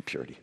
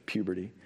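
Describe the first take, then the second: First: Laughing at his own slip of the tongue; chuckling, half-whispered "Purity". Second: Said in the usual way. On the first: Real, not acted. Pastor laughs at his own word mix-up.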